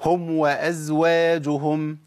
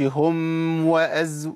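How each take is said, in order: First: "هم وأزواجهم" with the meem of "هم" fully closed, slow and distinct before "وأزواجهم"; clear meem before waw. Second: "هم وأز" with the meem of "هم" blurred into the waw, very slow; the mistake, cut short; hidden meem, wrong. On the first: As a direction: say "هم وأزواجهم" slowly, lips shut on the meem. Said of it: "مثال مع الواو". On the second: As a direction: slide from "هم" into "وأز" without closing the lips. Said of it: "ما أقولش". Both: Shown as a demonstration.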